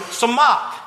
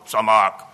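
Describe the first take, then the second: First: The word is said brightly, with a smile. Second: The word is said flatly, without a smile. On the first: The speaker calls it right. "my face actually physically brightens up when I say the word" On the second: The speaker calls it wrong. "don't go, samach. Don't do that"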